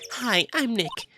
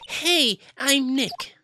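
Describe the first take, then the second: First: It is said fairly softly. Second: It is said more loudly.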